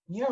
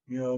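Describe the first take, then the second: First: The meow sounds bright, obnoxious and far forward. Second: The meow sounds placed back and subdued. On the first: The speaker calls it right. "the obnoxious meow" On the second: The speaker calls it wrong. "Not meow"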